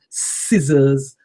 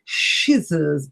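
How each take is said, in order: First: The word begins with a plain s sound. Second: The word begins with an sh sound. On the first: The speaker calls it right. "So these are called scissors" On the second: The speaker calls it wrong. "people often call them shizzers ... sh sound"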